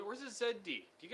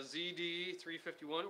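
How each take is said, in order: First: Commonwealth "Z", rhyming with "bed". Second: American "Z", rhyming with "see"; Z said as zee. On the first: Asking viewers in Australia, "Z" pronounced zed. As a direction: say "Z" as zed, quickly. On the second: Reading out a model name, "Z" pronounced zee. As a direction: say "Z" as zee, slowly. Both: Shown as a demonstration. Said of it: "Or is it Z or Zed".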